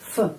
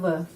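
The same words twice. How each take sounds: First: The consonant is voiceless, like f. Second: The consonant is voiced, like v. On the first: The speaker calls it right. "huruf voiceless, ya, voiceless, tidak ada suara" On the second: The speaker calls it wrong. "bukan в"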